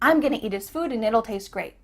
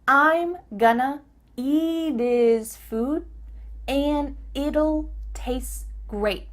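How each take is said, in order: First: The sentence is said at a fast pace. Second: The sentence is said at a slower pace.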